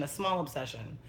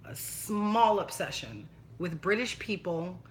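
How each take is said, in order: First: Said in the usual way. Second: "small" slowly drawn out; stress on small. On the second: Shown as a demonstration. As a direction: stretch out the word "small" for emphasis. Repeats it drawn out for emphasis.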